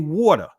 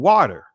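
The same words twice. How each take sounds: First: It is said in a New Jersey accent. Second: It is said in a neutral accent.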